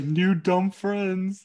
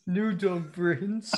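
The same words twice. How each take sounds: First: Very slow, higher, louder drawn out; slow hammed-up King Shark; dumb shark voice. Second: Very slow, stretched repeat; slow lightly voiced shark; echoed shark voice. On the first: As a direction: stretch it like a slow happy giant. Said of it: "He's like". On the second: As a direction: drag each word out. Echoing shark quote.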